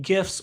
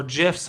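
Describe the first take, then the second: First: "gifs" with a hard G, as in gift. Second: "gifs" pronounced like "jifs"; soft G. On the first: Offering both ways to say it, "gifs" with hard G. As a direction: say "gifs" starting with a hard g sound. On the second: Offering the other way to say it, "gifs" with soft G. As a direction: say "gifs" starting with a j sound. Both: Shown as a demonstration. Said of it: "however you care to say it".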